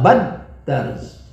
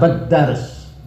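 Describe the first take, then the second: First: The word is said with strong added stress. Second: The word is said without added stress. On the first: Two people are doing the act together. "kalau ditekan" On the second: One person is doing the act. "kalau tidak kita tekan maka yang menulis satu orang"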